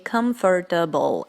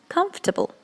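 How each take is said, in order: First: The middle 'or' syllable is fully pronounced. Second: The middle 'or' syllable is dropped. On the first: The speaker calls it wrong. "many people say comfortable, and this is not right" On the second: The speaker calls it right. "You should pronounce this word as comfortable"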